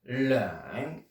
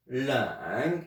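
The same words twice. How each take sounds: First: "leng" drawn out slowly in Mandarin, rising at the end; stretched Mandarin "leng" for the class. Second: "leng" said again at normal speed in Mandarin, rising; quick second take of Mandarin "leng"; Mandarin leng repeated. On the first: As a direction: spell out "leng" slowly for learners. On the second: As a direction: repeat "leng" once, briskly. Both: Shown as a demonstration. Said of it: "il s'appelle".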